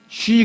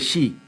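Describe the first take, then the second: First: It starts with an sh sound. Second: It starts with an s sound. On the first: The speaker calls it right. "쉬 그래야 되는데" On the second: The speaker calls it wrong. "그걸 시라고 발음을 해요"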